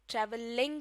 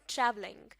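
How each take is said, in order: First: The stress falls on a later syllable. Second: The stress falls on the first syllable. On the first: The speaker calls it wrong. "नहीं" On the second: The speaker calls it right. "Stress word के शुरू वाले हिस्से में देना है"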